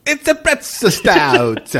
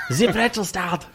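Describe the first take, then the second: First: Slow German accent "pretzel stout". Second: Laughing mock German accent; "pretzel stout" in a giggly German accent. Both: Shown as a demonstration. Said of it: "get your best German accent".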